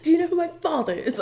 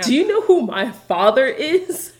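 First: Higher, fast spoiled-heir sneer; dissolute young heir. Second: Put-on spoiled rich-boy sneer; dissolute young heir. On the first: Retold or imitated. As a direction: spit it like a spoiled rich boy. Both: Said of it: "It's Lucius Malfoy is".

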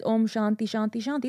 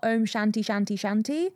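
First: "Shanti" said as SHAAN-tee with a long open a; correct pronunciation. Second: "Shanti" said as SHAN-tee with a flat English a; "Shanti" with short a and hard English t; anglicised mispronunciation. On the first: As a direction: say "Shanti" the Indian way, a as in "father". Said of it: "It's a slight little change". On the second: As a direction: say "Shanti" the Western way, a as in "ant". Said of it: "it's not Om Shanti Shanti Shanti". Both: Shown as a demonstration.

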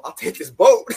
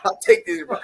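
First: Joking. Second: Higher and louder deadpan joke; joking. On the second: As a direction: repeat it as a grinning punchline. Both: Retold or imitated. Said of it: "You know, I was joking".

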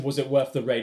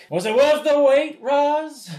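First: Said in the usual way. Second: Pitched way up and loud, smug nerd; hammed-up high smug question to Roz; high nerdy voice. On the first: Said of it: "Kelsey Grammer asks him". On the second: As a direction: squeal it out like a smitten geek. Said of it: "he's like".

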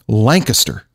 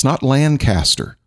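First: Lancaster said as LANK-ister; Lancaster stressed on LANK, the rest swallowed; local pronunciation. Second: Lancaster said slowly as LAND-caster; Lancaster with a full, drawn-out "caster"; mispronounced Lancaster. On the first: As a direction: say Lancaster with a squashed ending, LANK-uh-ster. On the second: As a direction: say Lancaster wrongly, as two words, LAND-CASTER. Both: Shown as a demonstration. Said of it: "notice that I say it right".

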